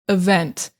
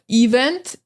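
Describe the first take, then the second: First: The stress is on the second syllable. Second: The stress is on the first syllable. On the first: The speaker calls it right. "So the emphasis is on the vent" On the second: The speaker calls it wrong. "A lot of students will say like event"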